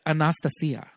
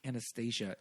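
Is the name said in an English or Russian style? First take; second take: Russian; English. First: The name is said in a Russian style. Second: The name is said in a plain English style. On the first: The speaker calls it right. "real Russian" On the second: The speaker calls it wrong. "is not how you pronounce it"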